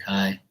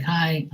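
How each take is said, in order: First: Said in the usual way. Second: High, chirpy mock greeting; perky girl's hi. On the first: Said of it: "I'm like". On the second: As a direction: mimic the young woman's bright hello. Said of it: "She's like".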